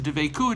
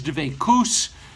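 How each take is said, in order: First: It is said in standard Israeli Hebrew style. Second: It is said in Ashkenazi Hebrew style.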